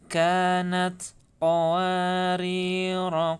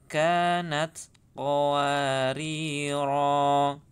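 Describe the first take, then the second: First: The final vowel of the last word is short. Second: The final vowel of the last word is long. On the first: The reciter continues into the next verse. "ketika wasol maka dia dibaca pendek" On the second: The reciter stops at the end of the verse. "tetap dibaca panjang roknya"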